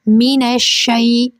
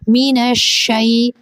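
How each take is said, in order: The two takes are said the same way.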